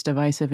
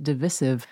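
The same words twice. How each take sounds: First: "divisive" with a long i, like "vice"; correct "divisive". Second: "divisive" with a short second i; mispronounced "divisive". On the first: Shown as a demonstration. Guessing what Crystal knows, long-i "divisive". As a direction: say "divisive" as dih-VY-siv. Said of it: "she knows that it's divisive". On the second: Retold or imitated. Imitating Crystal's slip, short-i "divisive". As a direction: say "divisive" as dih-VISS-iv. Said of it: "she pronounced it divisive".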